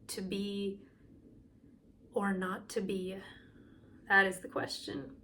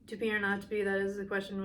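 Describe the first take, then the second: First: It is said expressively and with energy. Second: It is said flat and monotonous.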